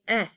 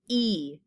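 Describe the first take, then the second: First: The vowel is a short 'eh' sound. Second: The vowel is a long 'ee' sound. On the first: "a short E sounds like eh" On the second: "as opposed to E"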